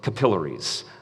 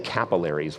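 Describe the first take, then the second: First: It is said the speaker's own Canadian way. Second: It is said the audience's way, not Canadian.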